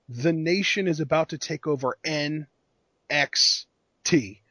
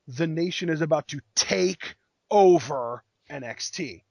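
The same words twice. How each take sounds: First: NXT is stressed and spaced out. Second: Take over is stressed.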